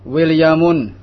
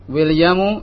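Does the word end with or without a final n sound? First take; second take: with n; without n. First: The word ends in -un, with a final n. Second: The word ends in -u, without a final n. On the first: The speaker calls it wrong. "tidak boleh Williamun" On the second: The speaker calls it right. "Yang benar adalah Williamu"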